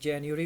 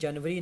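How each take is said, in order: First: It is said with an English-style pronunciation. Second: It is said with a local Urdu-style pronunciation. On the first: The speaker calls it right. "जनवरी होता है" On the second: The speaker calls it wrong. "इसी तरह जनवरी नहीं होता"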